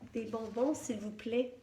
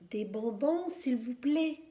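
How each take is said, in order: First: It is said in a very soft voice. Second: It is said a little more loudly. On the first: "d'une voix très douce" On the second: "un peu plus fort"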